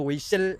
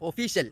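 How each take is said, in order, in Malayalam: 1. 'oyshal' എന്നാണ് പറയുന്നത്, f ശബ്ദമില്ലാതെ. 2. 'official' എന്നാണ് പറയുന്നത്, f ശബ്ദത്തോടെ. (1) "ഒയ്ശലല്ല" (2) "ഒഫീഷ്യൽ. അങ്ങനെ പറയും"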